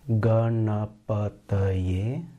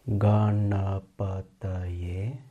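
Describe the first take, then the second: Both takes have the same delivery.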